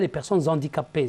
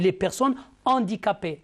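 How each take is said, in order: First: The word before handicapées runs straight into it. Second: The word before handicapées stays apart from it. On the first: The speaker calls it wrong. "on ne dit pas" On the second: The speaker calls it right. "c'est un H aspiré, on dit"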